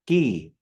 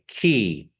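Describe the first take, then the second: First: It starts with a blended g-k sound. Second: It starts with a plain k sound. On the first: The speaker calls it right. "That G K sound together" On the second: The speaker calls it wrong. "They say it like a K"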